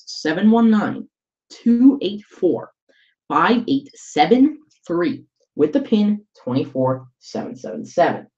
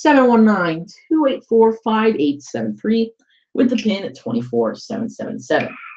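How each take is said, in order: First: The number is read slowly. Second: The number is read quickly.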